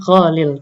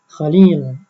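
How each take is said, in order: First: The vowel in the last syllable is short. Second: The vowel in the last syllable is long. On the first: The speaker calls it wrong. "bukan Khalil" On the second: The speaker calls it right. "kalau Khalil itu yang panjang li-nya ya, bukan kho-nya"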